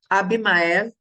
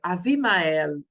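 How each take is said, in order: First: The second consonant is a b sound. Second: The second consonant is a v sound. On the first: This is the Portuguese form of the name. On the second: This is the Hebrew form of the name.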